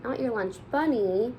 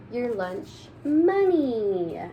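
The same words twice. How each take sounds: First: Said in the usual way. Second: "money" slow and stressed, falling. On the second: Shown as a demonstration. Reader correcting "lunch bunny" for the children, slow stress on "money". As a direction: lean on the word "money", slowly. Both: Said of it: "What do you think she meant?".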